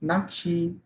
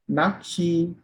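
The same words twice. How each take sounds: No difference in how they are said.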